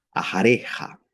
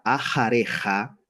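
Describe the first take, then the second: First: Ajareja with the tone peak on re, rising at the end; stress on re. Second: Said in the usual way. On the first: Shown as a demonstration. Teacher shows class the stressed re in ajareja. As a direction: lean on the re of ajareja. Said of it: "en la sílaba re". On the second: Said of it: "tenemos una sílaba pretónica".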